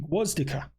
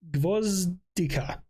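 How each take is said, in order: First: The second consonant is a w sound. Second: The second consonant is a v sound. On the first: The speaker calls it right. "It would be Gwozdika. We're going with that" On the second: The speaker calls it wrong. "so it wouldn't be Gvozdi, Gvozdika"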